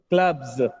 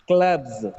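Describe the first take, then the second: First: The word ends with a buzzing z sound. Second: The same.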